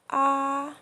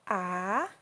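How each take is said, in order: First: The pitch stays high and flat. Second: The pitch dips down and then rises. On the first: "keep our voice at very high pitch and flat" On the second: "falling rising tone"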